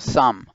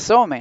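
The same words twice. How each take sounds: First: No vowel sound is heard after the M. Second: A vowel sound is heard after the M. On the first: The speaker calls it right. "sino some" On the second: The speaker calls it wrong. "acá no sería some"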